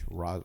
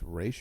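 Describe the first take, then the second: First: The name ends with a 'z' sound. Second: The name ends with an 'sh' sound.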